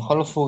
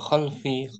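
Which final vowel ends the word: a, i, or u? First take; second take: u; i. First: The word ends with a u vowel. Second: The word ends with an i vowel. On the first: "Bukan khalfu kan?" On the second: "Bukan juga khalfi"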